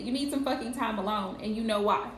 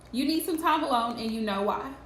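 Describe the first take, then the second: First: It is said in a harsh, blunt tone. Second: It is said in a nice, gentle tone.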